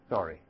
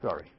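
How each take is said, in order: First: Said in the usual way. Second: A low, soft "Sorry.". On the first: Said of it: "that they ever cry out". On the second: Retold or imitated. Preacher to children, a low soft "Sorry." the Israelites never said. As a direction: breathe "Sorry." under your voice. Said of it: "there's no evidence that they ever cry out".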